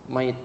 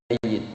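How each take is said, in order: First: The middle y sound is single and short. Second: The middle y sound is doubled and held. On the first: Someone who has already died. "kalau sudah meninggal, maka tasdidnya hilang" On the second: Someone who will die. "Pelan-pelan. Namanya mayit"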